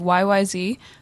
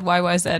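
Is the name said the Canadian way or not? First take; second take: not Canadian; Canadian. First: It is said the non-Canadian way. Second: It is said the Canadian way.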